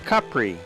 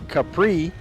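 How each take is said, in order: First: The name has an Italian pronunciation. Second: The name has an American pronunciation. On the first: The speaker calls it right. "Italians call it Capri, which is the original and more correct way" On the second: The speaker calls it wrong. "Americans tend to call it Capri"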